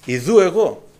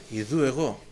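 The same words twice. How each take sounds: First: Here I am, called out firmly; a ringing divine reply; louder answer. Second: Soft, low here I am; a hushed divine reply; quiet answer. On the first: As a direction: answer out loud with confidence. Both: Shown as a demonstration. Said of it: "και ο Κύριος απάντησε".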